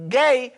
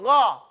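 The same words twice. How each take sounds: First: "gay" with a hard g; plain English g and ay in "gay"; wrong pronunciation. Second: Throaty "Gha", open vowel; correct gha sound. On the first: Teacher warns about the ya, mispronounced "gay". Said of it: "it's not gonna go". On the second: Teacher says it still goes so, throaty "Gha". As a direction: keep "Gha" at the back of the throat. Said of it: "It still goes Gha". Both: Shown as a demonstration.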